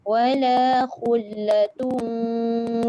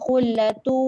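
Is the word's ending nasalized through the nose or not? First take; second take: nasal; not nasal. First: The ending is nasalized, resonating through the nose. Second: The ending is said with the lips only, no nasal. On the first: The speaker calls it right. "Tanwin ni sebab dia kena pergi dekat hidung" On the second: The speaker calls it wrong. "Kalau kita baca khullatu tu pergi bibir je kan"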